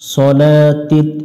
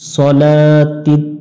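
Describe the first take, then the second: Both takes have the same delivery.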